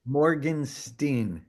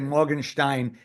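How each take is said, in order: First: The name is said with an English pronunciation. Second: The name is said with a German pronunciation. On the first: This is how the name's owner says it. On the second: This is how a German speaker would say it.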